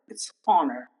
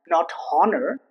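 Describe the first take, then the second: First: The H at the start is silent. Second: The H at the start is pronounced. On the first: The speaker calls it right. "The rules for H to be silent is at the beginning" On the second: The speaker calls it wrong.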